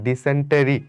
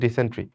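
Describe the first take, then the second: First: The word is said with four syllables. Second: The word is said with three syllables. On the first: The speaker calls it wrong. "মানাটা দেখো ডিসেন্টেরি" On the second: The speaker calls it right. "এটার উচ্চারণ আসলে ডিসেন্ট্রি"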